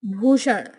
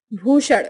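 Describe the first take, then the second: First: Said in the usual way. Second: ड़ ending भूषण; Bihari pronunciation. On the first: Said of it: "Hindi उच्चारण". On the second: Shown as a demonstration. Teacher showing Bihari speech, भूषण with ड़ for ण. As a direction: say भूषण as "bhushar" with ड़. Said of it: "Bihari उच्चारण".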